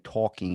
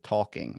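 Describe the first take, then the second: First: It is said with a Baltimore accent. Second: It is said with a standard accent.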